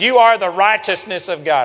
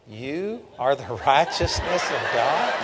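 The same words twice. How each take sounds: First: It is said boldly and with confidence. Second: It is said hesitantly and with fear. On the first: The speaker fully believes the statement. "I didn't say it that way" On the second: The speaker is afraid to claim the statement. "It was more like"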